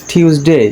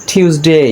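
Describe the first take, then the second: The two takes are said the same way.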